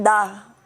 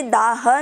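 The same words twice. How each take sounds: First: "दाह" as one syllable, daah, closing on a light h; सही उच्चारण. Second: "दाह" in two syllables, daa-ha, with a voiced ending; ग़लत उच्चारण. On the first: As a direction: end "दाह" on a breath of h, no vowel after. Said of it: "ऐसे बोलना है". ("दाह" के अंत में हल्का ह, बिना अ के) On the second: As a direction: add an a after the h in "दाह". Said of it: "ये दाह नहीं है". ("दाह" को दा-ह, अंत में पूरा अ लगाकर) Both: Shown as a demonstration.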